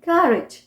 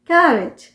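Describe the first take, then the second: No difference in how they are said.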